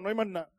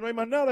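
First: It is said in a Dominican accent. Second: It is said in standard Spanish pronunciation.

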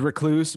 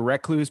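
First: The first part does not sound like 'reck'. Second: The first part sounds like 'reck' in reckless. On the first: This is the normal form of the word. The speaker calls it right. "I feel like the word is recluse" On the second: This form is used on purpose to match reckless. The speaker calls it wrong. "we have to say recluse because it goes with reckless"

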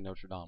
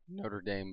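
First: It is said with a non-American pronunciation. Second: It is said with an American pronunciation.

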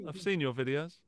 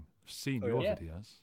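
First: It is said in a plain, neutral tone. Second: It is said in a menacing, threatening tone.

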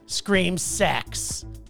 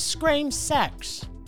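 First: It is said in the speaker's usual accent. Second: It is said in a different, put-on accent.

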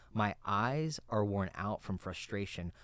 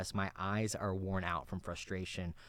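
Both takes have the same delivery.

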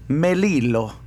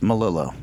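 First: The name is said with an Italian pronunciation. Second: The name is said with an English pronunciation. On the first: "Italian is Melillo" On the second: "English, it's Melillo"

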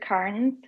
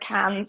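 First: The name is said in a non-Australian accent. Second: The name is said in an Australian accent.

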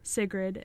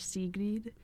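First: It is said with an American pronunciation. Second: It is said with a Swedish pronunciation.

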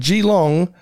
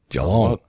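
First: The name is said with an American pronunciation. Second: The name is said with a local Australian pronunciation. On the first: The speaker calls it wrong. "he didn't pronounce it Geelong like so many American visitors do" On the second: The speaker calls it right. "He got it down to Geelong"

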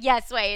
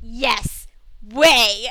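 First: The two words run together without emphasis. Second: Each word is stressed, with a pause between.

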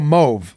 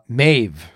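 First: The vowel sounds like 'ah'. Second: The vowel sounds like 'ay', as in Mave. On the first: The speaker calls it right. "now the O-A-U is sounded as ah" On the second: The speaker calls it wrong. "It looks like the name Mave. No, that's because I'm reading it wrong"

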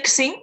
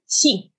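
First: The first sound is an English x. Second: The first sound lies between s and sh. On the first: The speaker calls it wrong. "don't say Xing. That's using the English pronunciation of X" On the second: The speaker calls it right. "stop your tongue halfway through"

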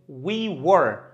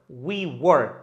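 Both takes have the same delivery.

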